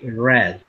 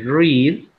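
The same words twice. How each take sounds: First: The word sounds like the color red. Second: The word does not sound like the color red. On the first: It is the past tense. "but in past, you say read. Similar to the color" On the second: It is the present tense. "In present, you say read"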